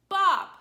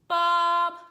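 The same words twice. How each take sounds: First: The pitch falls sharply like a yell. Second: The pitch stays level and flat. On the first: "It's a tone that comes down" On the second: "straight line across like this"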